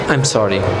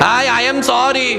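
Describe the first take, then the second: First: It is said softly and humbly. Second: It is said harshly, without any humility. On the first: The speaker truly regrets the wrong. The speaker calls it right. "আমি তার সামনে নিজেকে ছোট বানালাম" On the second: The apology is not really meant. The speaker calls it wrong. "যে sorry বলে তার আওয়াজ কি এরকম থাকে?"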